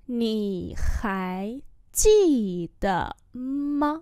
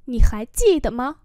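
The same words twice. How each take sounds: First: Nǐ hài jì de ma drawn out; slow demonstration. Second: Said in the usual way. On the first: Shown as a demonstration. Teacher repeats a question for learners, slowly. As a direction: separate each syllable of Nǐ hài jì de ma.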